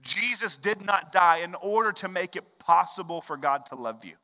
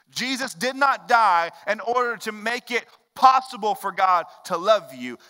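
First: Said in the usual way. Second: "not" hit higher and louder; insisting, "Jesus did not die", louder; emphatic repeat. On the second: Shown as a demonstration. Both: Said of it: "This is important".

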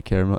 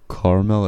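First: "caramel" said CARE-mel; "caramel" with the vowel of "care" up front; pronunciation of caramel. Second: "caramel" said CAR-mel, in two syllables; pronunciation of caramel. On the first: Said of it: "it's caramel". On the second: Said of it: "It's car". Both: Shown as a demonstration.

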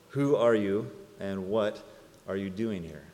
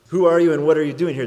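First: Mimicking the guard. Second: Loud, fast, high proclamation; booming question. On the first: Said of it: "ask me those same two questions". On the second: Acted. Preacher to congregation, booming the big question. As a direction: boom it out to the whole room.

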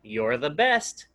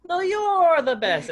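First: Said in the usual way. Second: High, loud shouted comeback; playful shout. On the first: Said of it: "But guess what, Kai?". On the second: Retold or imitated. Dad out-shouting his son at bedtime, high and playful. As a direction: shout it back to top him. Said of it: "I hear the shouting".

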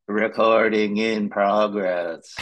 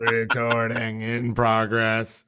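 First: Slow, flat recorded-message voice; robot voice. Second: Slow automated-message voice; flat machine announcement, drawn out; robot voice. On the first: Retold or imitated. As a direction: read it like a machine announcement. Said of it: "a very robotic voice said". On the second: Shown as a demonstration. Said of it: "Is that better? Did I do it right".

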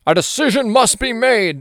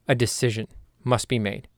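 First: High, loud, hammed-up dramatic declaration; grand, theatrical mock movie quote; movie-style pronouncement. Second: Said in the usual way. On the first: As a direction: declare it like a big movie line. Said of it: "sounds like something from a movie".

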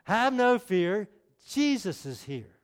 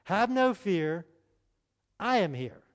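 First: Slow emphatic rhyme, no stretched; preacher recites his rhyme as a better slogan. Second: Slow sing-song rhyme; preacher reciting his little rhyme to the congregation. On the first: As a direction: lean on no, then settle on Jesus is here. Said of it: "this is a lot better than Underdog". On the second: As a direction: drawl out no fear, then land on here. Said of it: "let me share it with you first". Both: Shown as a demonstration.

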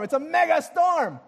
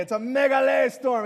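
First: "mega" hit hard, higher and louder; shouted mega storm. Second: Said in the usual way. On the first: Shown as a demonstration. Preacher hyping the congregation, shouting "mega storm". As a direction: belt out "mega storm" to the room. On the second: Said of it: "The Greek word is megale".

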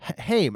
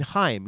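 First: "Haim" said as "haym", rhyming with name; first botched "Haim" like "haym"; wrong Haim. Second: "Haim" said as "hime", rhyming with time; corrected Haim. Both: Shown as a demonstration. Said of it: "I mean, [name]".

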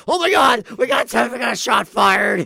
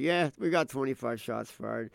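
First: High, loud panicked shout; mock frantic. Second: Casual, unexcited radio report; unfazed cop. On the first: Imitating Saint Paul cops beside calm Minneapolis, frantic. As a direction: overplay total panic over one shot. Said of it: "how frantic they are". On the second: Retold or imitated. Imitating Minneapolis cops used to gunfire, unfazed. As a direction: report it as pure routine. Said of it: "the Minneapolis cops are like".

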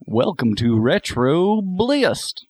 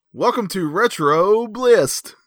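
First: Slow, higher copy of a host's intro; imitating [name]. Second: Signature show intro. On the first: Friend copying the host's line on request, [name] impression. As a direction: draw out the greeting in mimicry. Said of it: "trying to do a [name] impression". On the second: Shown as a demonstration. Host says the line again for Brandon to copy, signature intro. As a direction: stretch each word like a show opener. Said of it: "want me to say it again".

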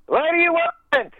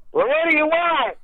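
First: Higher, slow imitated yell; a mild mock shout at the door; mock yell through door. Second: Higher, imitated shout at the door; a mild mock shout at the visitor; mock yell through door. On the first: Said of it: "yelling through the door". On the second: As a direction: call through the door, lightly yelled. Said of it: "he's just yelling through the door".

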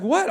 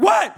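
First: Mild, questioning retort; taken-aback wife. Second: Loud, high-pitched irritated yell; acted exasperated outburst; mad snap. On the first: Retold or imitated. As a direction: react innocently to being snapped at. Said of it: "she's like". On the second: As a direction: snap back at an interruption, hammed up. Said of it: "I'm, like, mad".

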